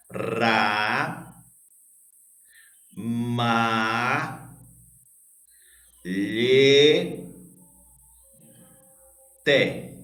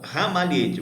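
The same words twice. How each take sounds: First: "Ra, ma, lhe, te" with each syllable drawn out and a long pause between. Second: Said in the usual way. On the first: Shown as a demonstration. Teacher splitting a word for pupils to count, syllable by syllable. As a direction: separate "Ra, ma, lhe, te" very slowly, holding each vowel. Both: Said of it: "vamos separar aqui a palavra ramalhete".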